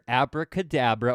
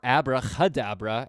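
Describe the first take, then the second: First: The word is said without an H sound. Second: The word is said with an H sound.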